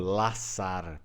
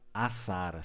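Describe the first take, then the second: First: The word begins with an L sound. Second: The word begins with a vowel, no L. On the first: "raramente ele vai ser lido como laçar" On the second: "Assar, sem o L"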